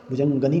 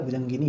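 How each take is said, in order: First: भुजंगनी with a plain a before नी; the wrong भुजंगनी, -gani; भुजंगनी as the mistake; wrong form said. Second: भुजंगिनी with an i before नी; the right भुजंगिनी, -gini; भुजंगिनी with i, corrected; correct form. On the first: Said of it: "भुजंगनी नहीं होता है". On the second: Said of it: "भुजंगिनी होता है". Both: Shown as a demonstration.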